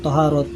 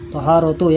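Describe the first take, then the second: First: The word stops short on an h sound. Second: The word ends with a full tu syllable. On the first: The reader stops at the end of the word. "Tapi kita wakaf aja lah" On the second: The word is read in connected reading. "kalau kalau dibacanya begitu ya"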